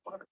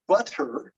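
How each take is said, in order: First: BUTTER with the T flapped like a quick D; soft BUTTER, tongue tapping once for the T; alveolar flap. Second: BUTTER with a crisp, aspirated T; over-careful BUTTER, the middle T puffed out; full middle T. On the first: Teacher asking students to listen, soft "butter" with flapped T. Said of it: "it's a little different". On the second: Teacher showing what she's not saying, "butter" with hard T. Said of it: "I'm not saying butter". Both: Shown as a demonstration.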